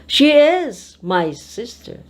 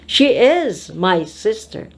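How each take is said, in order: The two takes are said the same way.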